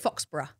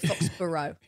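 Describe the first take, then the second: First: Pronounced with a British pronunciation. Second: Pronounced with an American pronunciation. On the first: This is how the British say it. "we would say Foxborough" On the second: This is how it must be said for an American audience. "I say Foxborough"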